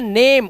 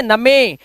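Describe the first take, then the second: First: नेम with long e and silent end; नेम as one syllable, naym; right reading. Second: नमे said na-me, final e sounded; नमे in two syllables; wrong reading. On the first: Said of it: "इसे पढ़ते हैं नेम". (सही उच्चारण नेम) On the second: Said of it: "इसे कभी नमे नहीं पढ़ते". (गलत उच्चारण नमे) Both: Shown as a demonstration.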